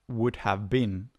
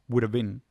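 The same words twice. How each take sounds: First: It is said at a normal, careful pace. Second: It is said quickly and run together.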